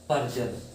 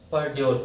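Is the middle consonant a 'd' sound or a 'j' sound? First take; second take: j; d. First: The middle consonant is a 'j' sound. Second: The middle consonant is a 'd' sound. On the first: The speaker calls it right. "लेकिन अब यहाँ आपको पता है यू R E आ रहा है ना" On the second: The speaker calls it wrong. "परड्योर पढ़ेंगे"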